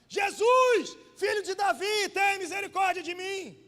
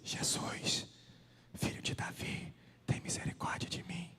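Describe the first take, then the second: First: It is shouted loudly. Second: It is said at a moderate volume.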